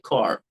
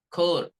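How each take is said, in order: First: American "core", full r at the end; American accent. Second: British "core", light r, clipped; British accent. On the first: Teacher contrasts American "core" with British. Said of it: "for Americans, it would be like". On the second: Teacher contrasts British "core" with American. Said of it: "for Britishers". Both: Shown as a demonstration.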